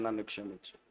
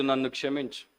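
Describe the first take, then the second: First: Much softer, lower, almost breathed; hushed plea. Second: Said in the usual way. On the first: Acted. Preacher voicing a prayer for the church, hushed. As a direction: let the plea sink to a hush.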